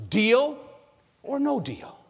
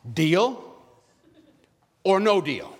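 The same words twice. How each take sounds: First: Deal or no deal pitched up, ending high; rising game show host. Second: Deal or no deal asked like a game show host. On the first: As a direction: tease them with the host's big question. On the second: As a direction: put the choice to them like a TV host. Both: Retold or imitated. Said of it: "what Howie Mandel says".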